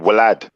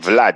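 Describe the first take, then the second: First: The name begins with a W sound. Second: The name begins with a V sound. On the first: The speaker calls it right. "You say Vlad" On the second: The speaker calls it wrong. "You don't say Vlad"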